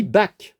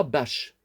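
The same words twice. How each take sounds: First: "Bach" prononcé "bak", k dur; bonne prononciation. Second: "Bach" prononcé "bache", ch chuintant; mauvaise prononciation. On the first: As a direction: dites "Bach" en finissant net sur k. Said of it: "on dit". ("Bach" avec k final) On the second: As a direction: dites "Bach" avec un ch comme dans chat. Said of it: "on dit pas". ("Bach" à la française, en ch) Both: Shown as a demonstration.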